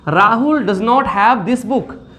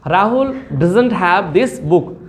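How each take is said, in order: First: 'Does not' is said as two full words. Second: 'Does not' is joined into one word, 'doesn't'.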